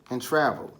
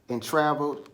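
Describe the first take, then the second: No difference in how they are said.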